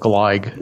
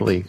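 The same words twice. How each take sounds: First: The name is said with a German pronunciation. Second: The name is said with an English pronunciation. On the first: "I give his name the German pronunciation. I call it Gleig" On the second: "not Gleig"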